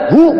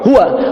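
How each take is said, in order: First: The word is cut short without its final syllable. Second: The word is said in full with its final syllable. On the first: The reader stops at this word. "waqaf di hu, wa-nya enggak dibaca" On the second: The reading continues without a stop. "anda munculkan lagi huwa"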